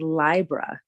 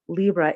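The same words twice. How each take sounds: First: The first vowel is an 'eye' sound. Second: The first vowel is an 'ee' sound.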